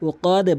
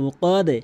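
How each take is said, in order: Both takes have the same delivery.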